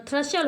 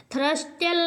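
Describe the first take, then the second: First: थ्रशल as "thra-shal", no T; silent T. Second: थ्रस्टल with T sounded after S; wrong pronunciation. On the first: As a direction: drop the middle T in थ्रशल. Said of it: "थ्रशल होता है". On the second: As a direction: say थ्रस्टल as "thras-tal". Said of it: "थ्रस्टल नहीं होता". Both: Shown as a demonstration.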